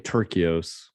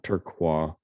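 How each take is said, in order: First: The name is said as tur-kee-os. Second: The name is said like the word turquoise. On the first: The speaker calls it right. "it's Ronnie Turkios" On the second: The speaker calls it wrong. "not Turquoise"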